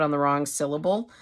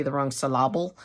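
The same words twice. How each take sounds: First: Said in the usual way. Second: "syllable" as syl-LAB-le, middle beat stressed; misplaced stress. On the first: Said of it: "the emphasis is being put". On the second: Shown as a demonstration. Tutor showing misplaced emphasis, "syllable" said syl-LAB-le. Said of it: "sounding weird because the emphasis is being put".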